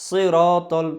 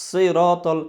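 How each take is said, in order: No difference in how they are said.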